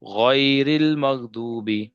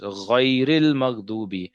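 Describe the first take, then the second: No difference in how they are said.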